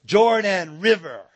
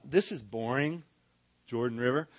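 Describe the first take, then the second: First: Said in the usual way. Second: Low, flat-toned boredom; bored sigh of a river name. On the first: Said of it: "We like to say". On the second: Shown as a demonstration. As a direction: say it like you couldn't care less. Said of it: "we like to say".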